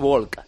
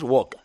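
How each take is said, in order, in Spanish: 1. Se oye un sonido de L antes de la k. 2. No se oye ningún sonido de L antes de la k. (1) "Los de opening decís walk" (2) "los de inglés de verdad decimos walk"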